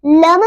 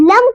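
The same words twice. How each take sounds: First: लम released into an extra vowel, "lama"; wrong bounced M. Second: लम ending cleanly on a shut M; correct closed M. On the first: Teacher shows what to avoid, bounced लम. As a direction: bounce the M of लम open. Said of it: "लम नहीं पढ़ेंगे". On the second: Teacher names the right form, closed लम. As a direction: close the lips on लम, no bounce. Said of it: "लम को लम नहीं पढ़ेंगे". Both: Shown as a demonstration.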